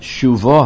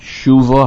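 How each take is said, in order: First: The stress is on the last syllable. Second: The stress is on the first syllable. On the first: The speaker calls it right. "The emphasis should be on the last syllable" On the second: The speaker calls it wrong. "not shuvo Hashem"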